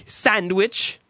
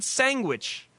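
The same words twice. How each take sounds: First: "sandwich" slow, with every sound articulated; mocking over-enunciation. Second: "sandwich" said loosely as "sangwich"; sloppy habitual pronunciation. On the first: Host quoting caller's affected word back, "sandwich" over-precise. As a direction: imitate a fussy "sandwich", d sounded. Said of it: "That is not how you say it". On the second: Retold or imitated. Host reminding caller of his old "sandwich", said "sangwich". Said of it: "You always said sandwich".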